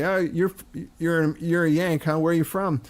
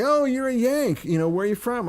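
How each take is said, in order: First: Lightly voiced London pub-goer; a mild imitation of a guy sizing up a Yank; London pub local. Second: High-pitched, welcoming northerner imitation; friendly northern local. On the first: London pub guys questioning an American, lightly voiced. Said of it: "two guys would say". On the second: Northern local meeting a Yank, high friendly imitation. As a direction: pitch it up high, interested in the visitor. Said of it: "And people would say".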